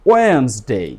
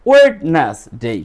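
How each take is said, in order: First: The d is silent, giving two syllables. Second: The d is pronounced, giving three syllables. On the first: The speaker calls it right. "Correct প্রনাউন্সিয়েশনটা ... ডি এখানে কি? Silent." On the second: The speaker calls it wrong. "যদি ডি silent না হতো ... that is wrong"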